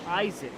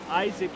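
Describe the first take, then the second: Both takes have the same delivery.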